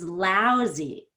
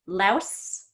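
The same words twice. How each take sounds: First: LOUSY with a long OU and buzzing Z; Z sound. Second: LOUSE with a short vowel and hissed S; S sound. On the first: Teacher contrasts two words, LOUSY with a Z. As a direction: stretch LOUSY through a voiced Z. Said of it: "lousy has a Z sound". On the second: Teacher contrasts two words, LOUSE ending in S. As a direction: end LOUSE on a voiceless S. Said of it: "louse ends in an S sound". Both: Shown as a demonstration.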